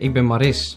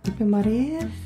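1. De s aan het eind is scherp en duidelijk uitgesproken. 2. De s aan het eind is zacht en nauwelijks hoorbaar. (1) "Normaal zou ik zeggen" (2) "En niet nu zeggen ... Zo'n zachte s, omdat je niet wil slissen"

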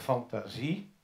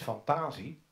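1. De klemtoon valt op de laatste lettergreep. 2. De klemtoon valt vóór de laatste lettergreep. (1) "omdat de klemtoon aan het eind zit" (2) "wij zeggen niet fantasie"

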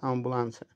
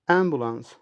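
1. Kelime Hollanda telaffuzuyla söyleniyor. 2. Kelime İngiliz telaffuzuyla söyleniyor.

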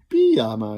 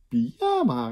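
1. De klemtoon ligt op de eerste lettergreep. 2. De klemtoon ligt op de middelste lettergreep. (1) "pyjama is gek" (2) "pyjama is iets normaler"

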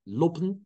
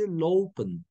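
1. İlk ünlü kısa o. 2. İlk ünlü uzun o. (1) "Lopen değil, lopen değil. Tek o değil bu" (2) "lope iki o ile çekmiştik ve söylenişi lopen"

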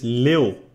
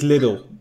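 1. De naam wordt uitgesproken als één korte lettergreep. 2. De naam wordt uitgesproken als twee lettergrepen, zoals 'lidl'. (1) "Het is Lil" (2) "zeg het dan niet zoals mijn ouders het zeggen"

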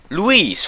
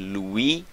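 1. De laatste s-klank wordt uitgesproken. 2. De laatste s-klank is stil. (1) "voor mij zegt hij die S wel" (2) "het Frans spreek je de laatste tijd niet uit"

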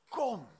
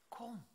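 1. Het woord klinkt vast en gebiedend. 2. Het woord klinkt zacht en vrij van oordeel. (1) "En ook met autoriteit" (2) "Maar ook zonder oordeel"

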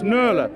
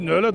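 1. Het wordt op zijn Nijmeegs uitgesproken. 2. Het wordt op zijn Achterhoeks uitgesproken.

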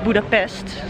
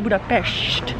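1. De laatste lettergreep eindigt op een gewone 's'-klank. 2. De laatste lettergreep eindigt op een 'sh'-klank. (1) "en niet Budapest, zoals wij zeggen" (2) "Het is trouwens Budapest"

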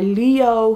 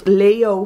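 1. De eerste klinker is een lange 'ee'-klank. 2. De eerste klinker is een lange 'ay'-klank. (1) "Maar Leo vind ik echt een superleuke naam" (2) "Want Leo vind ik dan niet echt mooi"

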